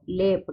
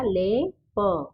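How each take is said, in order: First: Said in the usual way. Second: ले and प said slowly apart; slow split reading; syllable by syllable. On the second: Shown as a demonstration. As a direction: split लेप into ले and प. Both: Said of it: "तो क्या बन गया".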